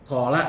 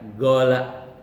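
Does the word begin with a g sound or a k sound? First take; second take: k sound; g sound. First: The word begins with a k-like qaf sound. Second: The word begins with a hard g sound.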